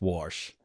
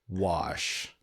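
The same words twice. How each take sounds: First: It is said in a thick country accent. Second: It is said in a neutral, standard way. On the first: The speaker calls it wrong. "It's pretty thick" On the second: The speaker calls it right. "You said it right"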